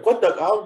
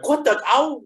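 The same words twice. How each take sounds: First: It is said in a gentle, nice tone. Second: It is said in a harsh, mean tone.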